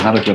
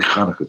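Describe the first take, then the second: First: It begins with a soft, breathy h sound. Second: It begins with a harsh, raspy throat sound. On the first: This is how people usually say it without training. "everyone will say Happy Hanukkah" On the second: This is how a trained speaker says it. "dig deep down in your throat"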